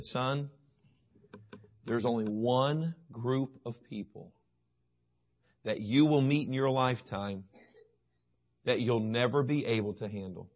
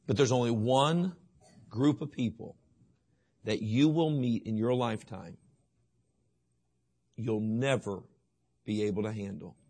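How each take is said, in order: First: Quiet fatherly gravity; solemn warning. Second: Long pauses, dropping lower and softer to the end; hushed emphasis. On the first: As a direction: lay it down gently as a father's warning. Quoting Solomon to his son. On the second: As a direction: let each phrase hang, then sink to a hush on "handle". Repeats the warning more intensely. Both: Acted.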